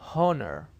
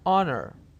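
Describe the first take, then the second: First: The first sound is a breathy H. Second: The word starts directly with a vowel. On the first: The speaker calls it wrong. "people here mistakenly call it honor, which is not correct" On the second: The speaker calls it right. "This word is pronounced honor"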